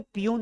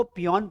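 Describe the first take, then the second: First: पियून with a long oo, "pee-YOON"; mispronounced पियून, "oo" vowel at the end; wrong reading of peon. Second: पियोन with an open o, "pee-YON"; पियोन, "aw" vowel before the n; taught reading of peon. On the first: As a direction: say पियून, second syllable rhyming with "moon". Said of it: "पियून नहीं पढ़ते हैं". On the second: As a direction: say पियोन, second syllable rhyming with "on". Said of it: "इसको पियोन पढ़ते हैं". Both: Shown as a demonstration.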